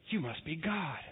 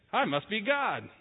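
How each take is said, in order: First: Awed dog. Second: Smug cat. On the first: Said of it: "The dog looks at you and goes". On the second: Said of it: "The cat goes". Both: Retold or imitated.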